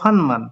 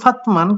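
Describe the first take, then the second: First: An n sound comes before the m. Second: A t sound comes before the m. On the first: This is how it actually comes out. "কিন্তু হলো" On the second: This is how it would be read unchanged. "হওয়ার কথা ছিল"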